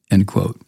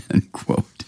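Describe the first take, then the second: First: Said in the usual way. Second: Breathy laugh through words; chuckling end quote. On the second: Real, not acted.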